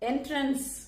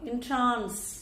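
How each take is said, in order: First: The stress is on the first syllable. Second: The stress is on the second syllable. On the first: It is the noun meaning a way in. "இந்த pronunciation எல்லாருக்கும் தெரிஞ்சது" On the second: It is the verb meaning to enchant. "verb வரும்போது அதோடைய உச்சரிப்பு என்னன்னா"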